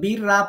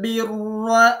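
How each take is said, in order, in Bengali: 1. r এর উচ্চারণ বারিক ও হালকা। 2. r এর উচ্চারণ মোটা ও ভারী। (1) "সে রটাকে বারিক করে ফেললো পরে উচ্চারণ সঠিক হলো না" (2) "তাহলেও র মোটা করে পড়তে হয়"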